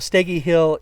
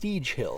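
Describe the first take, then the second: First: The name is two syllables with a short e. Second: The name is one syllable with a long ee. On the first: The speaker calls it right. "the proper pronunciation is Steggy" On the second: The speaker calls it wrong. "it looks like it should be pronounced Steege Hill"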